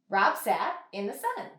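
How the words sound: The words flow together as in natural speech. The speaker calls it right. "we want to say it the way that we would say it in real life"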